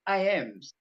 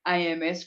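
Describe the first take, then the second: First: The S is attached to the M as possessive. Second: The S is said as its own separate letter. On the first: The speaker calls it right. "no, it's A Ms" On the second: The speaker calls it wrong. "they usually go A M S crystals"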